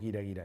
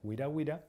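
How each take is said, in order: First: It starts with a throaty Spanish j sound. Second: It starts with a gw or w sound. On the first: The speaker calls it wrong. "No decimos" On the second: The speaker calls it right.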